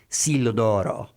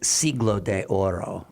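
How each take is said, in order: First: The 'de' is shortened and joined to 'Oro'. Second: The 'de' is said as its own syllable. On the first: It sounds like Italian. The speaker calls it wrong. "like like Italian" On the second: It sounds like Spanish. The speaker calls it right. "but it's Siglo de Oro"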